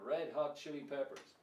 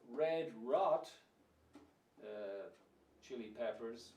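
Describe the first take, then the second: First: Red starts with R, hot with H. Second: Both words start with an R sound. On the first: The speaker calls it right. "red is red and hot is hot. So put it together" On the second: The speaker calls it wrong. "Or you could have Red Rot"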